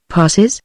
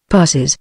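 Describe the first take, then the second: First: "Passes" rising into a question; echoed question. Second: "Passes" as a low, falling answer; answering statement. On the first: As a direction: echo "Passes" back with a lifted end. Word echoed back as a question. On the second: Answer, then echoed as question. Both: A narrator's reading.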